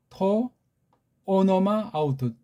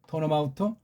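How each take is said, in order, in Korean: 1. 각 단어를 따로 말하며, 붙여서 읽지 않습니다. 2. 단어들이 이어져서 하나의 덩어리로 읽습니다.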